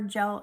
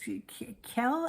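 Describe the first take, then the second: First: The name begins without any K sound. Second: The name begins with a K sound. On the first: "I don't know if you pronounce the K or the J" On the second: "I don't know if you pronounce the K or the J"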